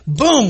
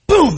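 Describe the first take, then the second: First: Imitated boom. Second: Loud, sharp mock crash of a tackle; imitated boom. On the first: Imitating another tackle hit. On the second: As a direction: smack out the boom like a big hit. Imitating the hardest hit.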